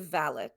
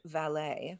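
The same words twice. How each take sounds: First: It is said the British way, less French-sounding. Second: It is said the American way, more French-sounding. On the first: "they say valet" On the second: "We say chauffeur and valet"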